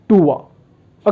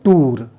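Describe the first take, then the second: First: The vowel glides from oo into uh. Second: The vowel is a plain long oo sound. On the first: The speaker calls it right. "उअर as in पुअर और टूअर" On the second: The speaker calls it wrong. "जिसको हम बोलते हैं टूर"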